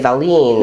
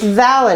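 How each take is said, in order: First: The name ends with a long 'leen' sound. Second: The name ends with a short 'len' sound. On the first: The speaker calls it wrong. "I would have been inclined yeah. to say Valine" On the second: The speaker calls it right. "like Valentine without the time"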